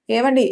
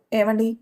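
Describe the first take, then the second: First: A louder second call to wake him; wife calling her sleeping husband a bit louder. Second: Said in the usual way. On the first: Acted. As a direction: raise the voice on ఏవండి to rouse a sleeper. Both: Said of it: "అని కాస్త గట్టిగానే అరిచింది".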